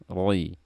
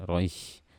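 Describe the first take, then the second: First: The syllable ends cleanly with no breath noise. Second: The syllable ends with an audible breathy hiss. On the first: The speaker calls it right. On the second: The speaker calls it wrong.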